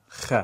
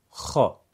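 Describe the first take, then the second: First: خ light and narrow; thin fatha, wrong. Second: خا full and thick, mouth vertical; heavy fatha. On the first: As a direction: say خ thin to show the mistake. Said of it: "دیگه نمیگیم خ". (فتحهٔ نازک نادرست) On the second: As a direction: say خا broad and heavy. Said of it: "درشت و پرحجم". (فتحهٔ درشت و پرحجم در خا) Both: Shown as a demonstration.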